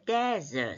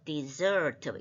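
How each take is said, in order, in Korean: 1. 강세는 첫 번째 음절에 있어요. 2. 강세는 두 번째 음절에 있어요. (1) "de에 액센트가 옵니다" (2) "zer의 액센트가 가기 때문에 대라고 발음을 안 하고"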